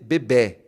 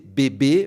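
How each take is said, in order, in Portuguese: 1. A vogal e é aberta. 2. A vogal e é fechada. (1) "vai ser bebê" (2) "em vez de ser bebê"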